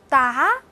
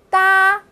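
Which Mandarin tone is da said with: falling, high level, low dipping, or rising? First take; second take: rising; high level. First: The syllable is said with a rising tone. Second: The syllable is said with a high level tone. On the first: "哒的四声" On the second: "哒的四声"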